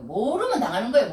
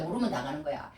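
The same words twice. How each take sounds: First: Emphatic preaching. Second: 모르면 당하는 거야 said softer and lower, repeated to himself; quiet aside. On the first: Preacher drives the point home to the congregation, emphatic. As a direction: preach it out with force on 모르면. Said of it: "우리 예수 믿는 것도요. 모르면 당하는 거예요". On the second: Preacher repeats the point softly to the congregation, quiet echo. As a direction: drop the voice to a low echo on 모르면. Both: Shown as a demonstration.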